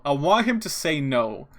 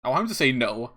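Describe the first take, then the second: First: "no" drawn out slowly; slow, insistent wish ending on a long "no"; emphatic repeat. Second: Said in the usual way. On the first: Real, not acted. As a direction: lean hard on "him" and stretch "no".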